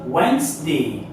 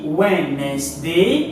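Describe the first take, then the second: First: It is said with two syllables, middle dropped. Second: It is said with three syllables, as spelled. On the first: "mais on prononce Wednesday" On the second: "Ça s'écrit Wednesday. On a trois syllabes"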